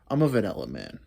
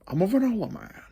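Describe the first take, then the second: First: It is said in his own normal voice. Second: It is said in a There Will Be Blood impression.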